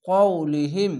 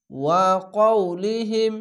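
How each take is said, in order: First: Said in the usual way. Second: Slow recited blend. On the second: Shown as a demonstration. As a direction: join the syllables into one slow recited word. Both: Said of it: "হা মিম জের হিম".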